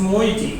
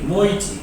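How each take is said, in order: Both takes have the same delivery.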